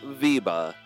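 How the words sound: The name is said with a Dutch pronunciation. "if you're Dutch"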